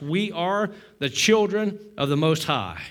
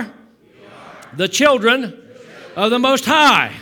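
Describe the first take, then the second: First: Said in the usual way. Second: Drawn out, loud and higher; loud slow call. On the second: Shown as a demonstration. Pastor calling the line out for the church. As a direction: call it out slowly to the room. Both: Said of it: "say it with me".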